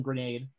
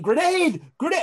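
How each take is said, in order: First: Much softer, low weak croak; a broken, barely there yell; feeble croak. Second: Mock yelling. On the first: Retold or imitated. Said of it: "you're probably yelling".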